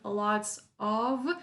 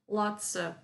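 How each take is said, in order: First: The word 'of' has a full vowel. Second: The word 'of' has a reduced schwa vowel. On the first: "Instead of saying lots of" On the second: "a schwa sound"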